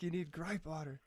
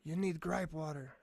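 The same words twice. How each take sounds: First: Irish lady voice, only lightly put on; a hint of an Irish accent, half-hearted; bad Irish accent. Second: Put-on a light, half-hearted Irish accent; mock Irish lilt, barely there; bad Irish accent. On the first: Retelling the Irish church lady's advice, faint Irish accent. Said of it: "It's pretty shitty". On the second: Church lady from Ireland advising a tired dad, light Irish accent. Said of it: "that's my Irish accent".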